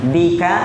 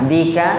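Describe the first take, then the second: The two takes are said the same way.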